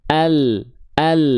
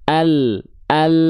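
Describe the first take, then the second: Both takes have the same delivery.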